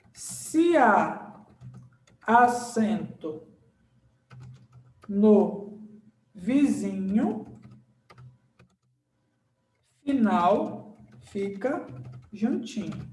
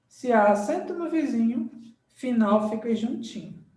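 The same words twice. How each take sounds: First: Very slow, word by word, long pauses; slow dictation. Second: Said in the usual way. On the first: Shown as a demonstration. Teacher writing the accent rhyme for students, slow dictation. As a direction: dictate the rule while writing it out.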